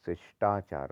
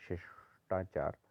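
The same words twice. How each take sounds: First: शिष्टाचार joined, light s sound; lighter sibilant. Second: शिष्टाचार split as "shesh - taachaar", softly; wrong heavy sh. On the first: Teacher correcting it, शिष्टाचार joined and light. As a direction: run शिष्टाचार together. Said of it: "होता है". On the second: Teacher showing the error, शिष्टाचार split with heavy sh. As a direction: hold sh in शिष्टाचार. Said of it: "नहीं होता". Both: Shown as a demonstration.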